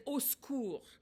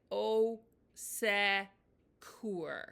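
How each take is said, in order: First: "au secours" run together fast as /o sku/; the way French people actually say it; smushed French. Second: "au secours" dragged out very slowly, every sound spelled out as /o sɛkur/; the stiff version to avoid; over-careful French. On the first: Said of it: "I said". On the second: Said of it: "I didn't say". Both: Shown as a demonstration.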